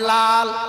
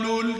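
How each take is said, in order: First: The syllable is said with an open a vowel. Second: The syllable is said with a u vowel. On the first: The speaker calls it right. "তারপরে লাল" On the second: The speaker calls it wrong. "লোল লুল কিছু না"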